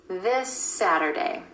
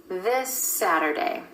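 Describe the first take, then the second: The two takes are said the same way.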